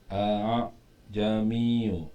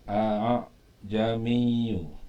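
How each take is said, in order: The two takes are said the same way.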